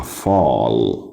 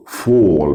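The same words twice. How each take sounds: First: فال as "fahl"; American open vowel. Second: فول as "fawl"; British rounded vowel. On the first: Teacher contrasting American فال, open "ah". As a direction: keep فال open on a long "ah". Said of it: "بالامريكان مفتوحة". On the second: Teacher contrasting British فول, rounded "aw". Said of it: "فول بالبريتش". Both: Shown as a demonstration.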